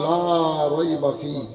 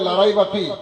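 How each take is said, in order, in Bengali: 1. 'la' এর স্বরধ্বনিটি টেনে দীর্ঘ করে বলা হয়। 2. 'la' এর স্বরধ্বনিটি দ্রুত ছোট করে বলা হয়। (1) "এই লামে টান আছে, মাদ আছে" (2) "তাড়াতাড়িতে বলে দেয়"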